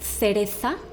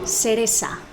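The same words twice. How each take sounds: First: The c is said with a th sound. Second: The c is said with an s sound. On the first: This is how it is said in Spain. "in Spain, we pronounce the C and theta, which is known as Castilian" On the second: This is how many other countries say it. "A lot of countries will pronounce it cereza"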